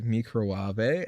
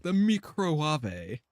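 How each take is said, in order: First: Slow "Microwave," as "mee-crow-ah-vay"; posh pronunciation. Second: Slow "The microwave." as "mee-crow-ah-vay", with a rising end; mock her posh "The microwave." drawn out as "mee-crow-ah-vay"; posh pronunciation. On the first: Shown as a demonstration. Streamer mocking the British cook's microwave, slow and posh. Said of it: "as always". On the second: Streamer mocking the rich cook's microwave, slow and posh. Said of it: "She's like".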